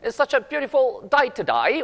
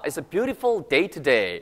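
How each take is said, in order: First: Today sounds like to die, Australian-style. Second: It is said in a standard accent.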